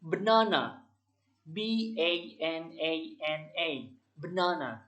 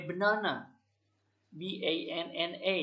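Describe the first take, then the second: First: "Banana" said clearly, then spelled B A N A N A slowly letter by letter, then "Banana" again; pronounce, spell, pronounce; correct spelling demo. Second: "banana" then spelled B A N N A with no final "banana"; wrong spelling demo. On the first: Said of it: "Contoh cepatnya seperti ini". (contoh mengeja yang benar: "Banana", dieja pelan huruf demi huruf, lalu "Banana" lagi) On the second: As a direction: spell it without closing pronunciation. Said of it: "Itu salah". (contoh yang salah: "banana" lalu dieja B A N N A tanpa mengucapkan "banana" lagi)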